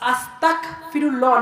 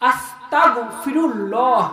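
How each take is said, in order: First: The middle consonant is a plain hard g. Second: The middle consonant is a throaty gh fricative. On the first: The speaker calls it wrong. "আস্তাগফিরুল্লাহ না" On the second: The speaker calls it right. "গইন উচ্চারণ হবে"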